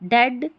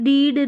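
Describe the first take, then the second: First: The vowel is a short 'e' sound. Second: The vowel is a long 'ee' sound. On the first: The speaker calls it right. "ई ए का ए sound आ रहा है" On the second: The speaker calls it wrong. "ऐसे नहीं बोल रहे हैं ई ए को ई पढ़िए"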